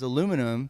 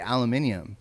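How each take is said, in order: First: The word is said the American way. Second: The word is said the British way. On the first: The speaker calls it right. "It's aluminum" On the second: The speaker calls it wrong. "but they say aluminium"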